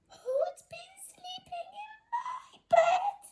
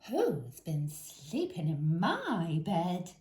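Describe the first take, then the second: First: It is said in a tiny squeaky voice. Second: It is said in a medium voice.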